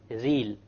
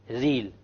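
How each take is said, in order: No difference in how they are said.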